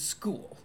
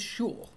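First: The word begins with an 'sk' sound. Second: The word begins with an 'sh' sound. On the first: It is the ordinary pronunciation. "I mean, school" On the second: It imitates how a character mispronounces the word. "That's the way Megamind pronounces it, as in shul"

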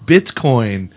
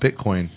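First: The T sound is clearly and crisply pronounced. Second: The T sound is weak and barely pronounced. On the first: The speaker calls it right. "people tend to enunciate the T more" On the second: The speaker calls it wrong. "I guess people tend to enunciate the T more than I do"

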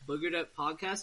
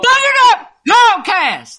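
First: It is said in his normal speaking voice. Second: It is screamed in a put-on Ford Ranger voice.

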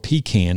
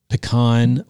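First: It is said with a Southern pronunciation. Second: It is said with a non-Southern pronunciation.

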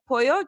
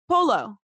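First: It is said with a Spanish pronunciation. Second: It is said with an Australian pronunciation. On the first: The speaker calls it right. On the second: The speaker calls it wrong.

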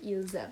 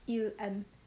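First: A z sound links the pronoun to the verb. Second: No z sound links the pronoun to the verb. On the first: The speaker calls it right. "When it's followed by a vowel, you would say ils aiment" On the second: The speaker calls it wrong. "it's not like il aime doesn't work"

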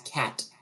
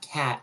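First: The final T is fully released. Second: The final T is cut off. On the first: The speaker calls it right. "it's cat. ... It's the T" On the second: The speaker calls it wrong. "it's not cat, ... we typically just kind of like cut off the word"

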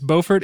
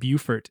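First: It is pronounced the North Carolina way. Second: It is pronounced the South Carolina way. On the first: It names the place in North Carolina. "It's Beaufort in North Carolina" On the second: It names the place in South Carolina. "and Beaufort"

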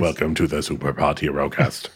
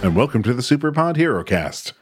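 First: It is said in a flat, mechanical robot voice. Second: It is said in a normal natural speaking voice.

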